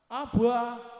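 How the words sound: It is said with a Javanese accent. "Datang orang Jawa"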